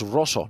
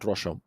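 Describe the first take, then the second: First: The middle consonant is a plain s sound. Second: The middle consonant is an sh sound. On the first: The speaker calls it right. "It's Rosso" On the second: The speaker calls it wrong. "not Rosho"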